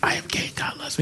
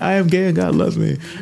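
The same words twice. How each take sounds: First: It is said quietly and hesitantly. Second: It is said loudly and firmly.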